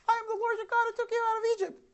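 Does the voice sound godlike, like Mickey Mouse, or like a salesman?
Mickey Mouse. It is said in a Mickey Mouse voice.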